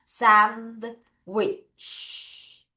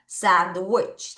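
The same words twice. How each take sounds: First: Sandwich broken into two drawn-out syllables; slow teacher's model of sandwich; careful sandwich demo. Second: Sandwich run together in one smooth word; natural native-style sandwich, lower pitch; native English pronunciation. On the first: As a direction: stretch sand, pause, then wich with a long final ch. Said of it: "요거 우리가 발음 잘하자". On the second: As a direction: join sand and wich without a break. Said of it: "원어민 발음으로 합시다". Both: Shown as a demonstration.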